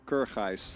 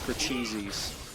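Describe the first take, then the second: First: The name sounds like 'keer-hice'. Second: The name sounds like 'con-cheesies'. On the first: The speaker calls it right. "Kirchheis if you really want to get pedantic about it" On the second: The speaker calls it wrong. "to frustrate people that don't like it when things are pronounced the wrong way"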